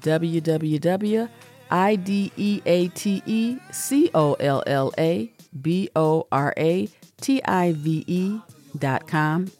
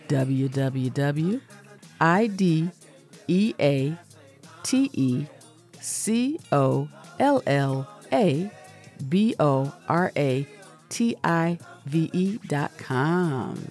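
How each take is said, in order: First: The address is said at normal speed. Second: The address is said more slowly.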